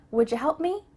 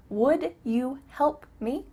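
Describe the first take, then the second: First: "Would ya" linked as "woodjuh", rising; quick casual request; reduced wouldja. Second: Slow, separate "Would you"; careful full question; full unreduced form. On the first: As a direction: run "Would ya" together with a j. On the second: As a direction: say "Would you help me" word by word. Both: Shown as a demonstration.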